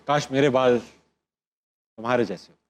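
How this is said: It is said in a soft, romantic voice. "Romantic."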